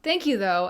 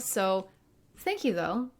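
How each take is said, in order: First: It sounds curt and dismissive. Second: It sounds warm and sincere.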